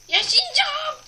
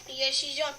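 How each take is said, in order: First: Sudden high, loud cry of resolve; yell. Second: Said in the usual way. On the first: Real, not acted. Gamer yelling at the screen he will survive. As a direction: belt it out, refusing to give up.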